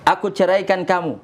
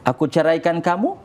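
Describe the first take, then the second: First: It is said as a flat statement. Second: It is said as a rising question.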